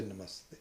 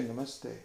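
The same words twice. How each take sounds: First: Namaste said softer, slow and bowed; soft reverent Namaste. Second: Said in the usual way. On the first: Shown as a demonstration. Teacher shows the mindful greeting, softly reverent. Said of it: "You say". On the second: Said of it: "You don't say".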